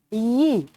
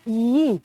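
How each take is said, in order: Both takes have the same delivery.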